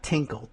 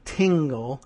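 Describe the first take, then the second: First: "Tinkle" with a hard k in the middle; wrong name Tinkle. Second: "Tingle" with ng-g in the middle; correct name Tingle. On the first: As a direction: say "Tinkle" softly, with a k sound. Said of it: "not Tinkle". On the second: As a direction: say "Tingle" with a g, not a k. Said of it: "T I N G L E". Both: Shown as a demonstration.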